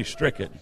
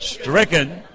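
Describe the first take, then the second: First: Said in the usual way. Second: "Stricken" with hearty emphasis; said like you mean it. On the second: Shown as a demonstration. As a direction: punch the word "Stricken" with conviction. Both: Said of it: "say it like you mean it".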